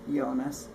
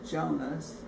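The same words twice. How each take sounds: First: The name begins with a Y sound. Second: The name begins with an English J sound. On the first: This is how locals always say the name. The speaker calls it right. "I've always heard it" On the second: This is how locals never say the name. The speaker calls it wrong. "I don't think anybody, anyone ever could, has called them uh"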